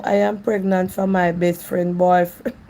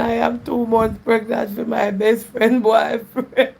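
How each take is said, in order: First: Said in the usual way. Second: Slow, laughing read of the comment. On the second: Real, not acted. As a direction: read it aloud while trying not to laugh. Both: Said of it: "Me nah laugh at funny".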